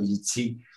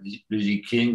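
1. Le deuxième mot commence par un son de type ts. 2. Le deuxième mot commence par un son k dur. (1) "quelque chose d'intermédiaire entre T, S et K" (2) "On avait beaucoup l'habitude de prononcer King"

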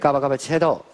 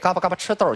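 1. 辅音含糊，像大舌头一样。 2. 辅音清脆，发音清楚。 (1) "大舌头说出来不好听" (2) "说嘴里边得干净"

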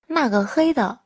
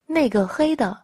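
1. Từ đầu tiên đọc là na. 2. Từ đầu tiên đọc là nei.

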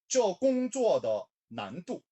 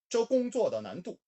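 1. 이 구절은 천천히 말합니다. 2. 이 구절은 빠르게 말합니다. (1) "발음 천천히 따라오겠습니다" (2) "좀 빠르게 발음할까요?"

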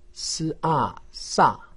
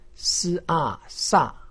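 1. 音高从高急剧降到低。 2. 音高从高急剧降到低。

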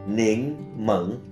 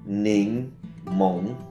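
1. Đây là cách phát âm đại lục của từ này. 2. Đây là cách phát âm ngoài đại lục của từ này. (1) "Người Trung Quốc đại lục phát âm là nín mẫn" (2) "Trái chanh gọi là nín mộng"

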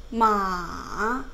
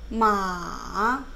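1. 음이 낮게 내려갔다가 올라가요. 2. 음이 낮게 내려갔다가 올라가요.

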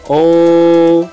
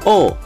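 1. Nadanya tetap tinggi dan datar. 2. Nadanya turun tajam dari tinggi ke rendah. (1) "nada pertama yaitu tinggi dan datar" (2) "nada keempat itu dibanting"

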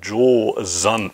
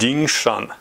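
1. Der Name wird japanisch ausgesprochen. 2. Der Name wird chinesisch ausgesprochen. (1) "auf Japanisch heißt er" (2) "Das ist die chinesische Aussprache"

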